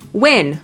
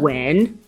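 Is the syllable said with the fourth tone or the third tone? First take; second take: fourth tone; third tone. First: The syllable has a sharply falling fourth tone. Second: The syllable has a low dipping third tone. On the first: "fourth tone" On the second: "third tone"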